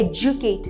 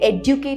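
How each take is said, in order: First: The middle consonant is a 'j' sound. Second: The middle consonant is a plain 'd' sound. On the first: The speaker calls it right. "ये एजुकेट है" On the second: The speaker calls it wrong. "एडुकेट नहीं है"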